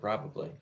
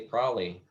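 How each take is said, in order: First: Every syllable of the word is clearly pronounced. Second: The word is clipped, with a syllable dropped. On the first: It sounds careful, like trained stage diction. The speaker calls it wrong. "instead of" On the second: It sounds natural, like a real person talking. The speaker calls it right. "sometimes you gotta say"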